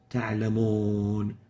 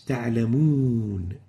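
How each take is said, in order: First: The long vowel sounds like an English 'o'. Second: The long vowel is a rounded 'oo' sound. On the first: The speaker calls it wrong. "not تعلمون. Ooh, not O" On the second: The speaker calls it right. "So basically it's تعلمون"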